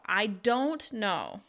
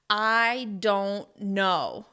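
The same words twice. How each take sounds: First: The word don't carries the main stress. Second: Every word is stressed, with pauses between. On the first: The speaker is really sure they do not know. "you're going to stress don't even more" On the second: The speaker is annoyed at being asked. "stress each and every word individually and pause between the words"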